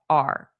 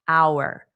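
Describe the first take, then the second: First: The word is reduced to a short 'r' sound. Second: The word is said fully, with a clear diphthong. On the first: "We just pronounce it as R" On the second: "the way it sounds in a dictionary audio clip"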